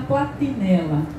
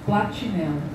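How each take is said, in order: First: The t is a plain, hard t. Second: The t is affricated, sounding like 'tch'. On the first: This is the Northeastern way of saying it. "com esse T, todo T" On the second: This is how people in the speaker's region say it. "como nós aqui falamos"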